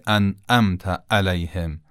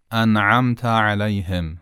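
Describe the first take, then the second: First: "انعمت علیهم" with glottal hits in place of both ayns; wrong hamza. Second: "انعمت علیهم" with soft throat ayns in both words. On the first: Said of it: "غلط خواهد بود". («انعمت علیهم» با همزه به جای عین) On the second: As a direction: glide softly through each ayn of "انعمت علیهم". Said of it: "دومیشو باید نرم بگیم". («انعمت علیهم» با عین نرم) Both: Shown as a demonstration.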